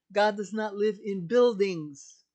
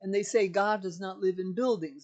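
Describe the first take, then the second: First: "God does not live in buildings" slower and louder, leaning on "God"; emphatic repeat. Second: Said in the usual way. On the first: Shown as a demonstration. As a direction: hammer home "God" in the repeat.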